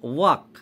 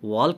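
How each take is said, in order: First: The L sound is left out of the word. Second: The L sound is pronounced in the word. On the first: The speaker calls it right. "ওয়াক বলবে" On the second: The speaker calls it wrong. "ওয়াল্ক নয়"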